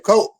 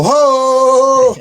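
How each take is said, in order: First: Brief, high Ho; shorter holler. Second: High, long drawn-out Ho; signature catchphrase holler. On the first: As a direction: cut the signature holler down to one high burst. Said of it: "they used one of the longer hoes". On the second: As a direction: belt out a high, sustained wrestler's holler. Acting out his signature cry in commercial. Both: Acted.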